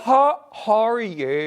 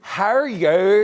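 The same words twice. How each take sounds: First: Better Northern Irish accent, slow; a loud, slow Northern Irish accent. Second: Copying a Northern Irish accent. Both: Shown as a demonstration. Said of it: "Now you're better".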